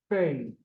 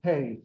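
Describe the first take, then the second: First: "pei" said as "fei", starting with F; F sound. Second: "pei" starting with a popped P; P sound. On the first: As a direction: soften the P of "pei" into an F. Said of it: "Sometimes we'll hear people call this". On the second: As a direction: say "pei" with a hard P, like pay. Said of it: "it'll behave like a P". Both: Shown as a demonstration.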